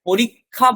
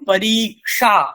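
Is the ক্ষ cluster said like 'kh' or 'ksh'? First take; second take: kh; ksh. First: The cluster sounds like kh. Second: The cluster sounds like ksh. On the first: The speaker calls it wrong. "বলবো না" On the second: The speaker calls it right. "ক এবং মূর্ধন্য ষয়ের যে যুক্তাক্ষরের যে উচ্চারণ"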